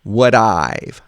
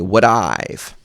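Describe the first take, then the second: No difference in how they are said.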